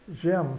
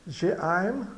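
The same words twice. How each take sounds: First: "j'aime" as one syllable, "jém"; silent final E. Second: "J'aime" split as "jê-am", letters sounded; read by parts. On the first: Teacher says final E is mute, "j'aime" as one syllable. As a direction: run "j'aime" together with an open E. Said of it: "Então, simplesmente j'aime". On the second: Teacher takes the spelling apart, "J'aime" in two syllables. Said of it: "o E final é mudo". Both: Shown as a demonstration.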